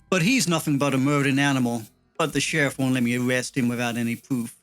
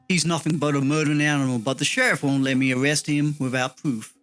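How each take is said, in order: First: It is read with a pause after 'animal'. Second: It is read quickly without a pause.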